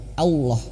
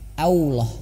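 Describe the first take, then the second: Both takes have the same delivery.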